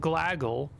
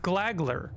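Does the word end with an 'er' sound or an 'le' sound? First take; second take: le sound; er sound. First: The word ends with a plain 'gle' sound. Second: The word ends with a 'gler' sound. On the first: The speaker calls it wrong. "have I been saying that wrong? ... then glaggle" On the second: The speaker calls it right. "but it's glagler"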